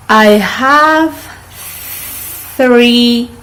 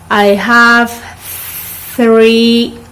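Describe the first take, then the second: No difference in how they are said.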